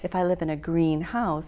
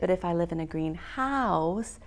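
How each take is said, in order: First: The stress is on the first part, green. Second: The stress is on the second part, house. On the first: It is a glass building for growing plants. "it means a place with all the plants" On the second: It is a house that is green in color.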